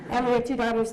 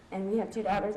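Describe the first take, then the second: First: Said in the usual way. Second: Real catch in the throat, a touch softer; fighting back sudden tears; emotion welling up. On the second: Real, not acted. Mother telling the audience about daughters, choked up. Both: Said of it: "I did not expect to get emotional about this".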